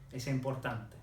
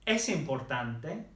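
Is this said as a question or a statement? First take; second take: statement; question. First: The pitch stays level like a statement. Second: The pitch rises like a question. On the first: It states that something is important. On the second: It asks whether something is important.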